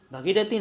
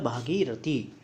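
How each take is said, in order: First: भगीरथी with short first vowel; raised pitch, short "bha" in भगीरथी; incorrect form. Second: भागीरथी with long first vowel; corrected form. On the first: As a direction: say भगीरथी as "bha-gee-rathi". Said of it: "भगीरथी नहीं होता". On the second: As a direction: say भागीरथी as "bhaa-gee-rathi". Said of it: "ये होता है भागीरथी". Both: Shown as a demonstration.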